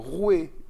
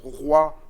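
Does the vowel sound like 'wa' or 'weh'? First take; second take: weh; wa. First: The vowel is pronounced like 'weh'. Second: The vowel is pronounced like 'wa'. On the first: This is the seventeenth-century pronunciation. "On disait le rouet de France" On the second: This is the modern pronunciation. "comment prononçait-on roi euh, à cette époque?"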